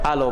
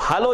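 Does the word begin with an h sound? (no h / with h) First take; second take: no h; with h. First: The word begins without any h sound. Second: The word begins with an h sound. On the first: "फ्रांसीसी वाले बोलेंगे तो क्या बोलते हैं, आलो बोलते हैं" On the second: "हलो जो आप लिखते हैं एच के साथ"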